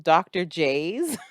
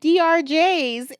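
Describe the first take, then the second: First: The first part is said as the word doctor. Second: The first part is said as letters D R. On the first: The speaker calls it right. "it was supposed to be doctor J's" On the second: The speaker calls it wrong. "I thought it was D R J's for years"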